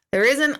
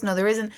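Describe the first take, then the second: First: "isn't" pushed higher and louder, rising; firm insistence. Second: Said in the usual way. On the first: Real, not acted. Medium insists to doubters there isn't, stressing "isn't". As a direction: lean hard on "isn't" to settle it.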